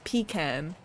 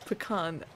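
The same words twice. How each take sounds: First: Pecan as PEE-kan; alternative pronunciation. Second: Pecan as puh-KAHN; doubtful pronunciation. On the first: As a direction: say Pecan with a clear "pee" and a flat "a" as in can. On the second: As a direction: say Pecan with a weak first syllable and a long "ah" in the stressed second. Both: Shown as a demonstration. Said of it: "That feels incorrect".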